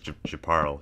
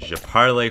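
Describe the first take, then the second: First: The final vowel of parle is silent. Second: The final vowel of parle is pronounced. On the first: The speaker calls it right. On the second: The speaker calls it wrong.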